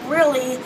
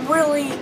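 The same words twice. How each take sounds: The two takes are said the same way.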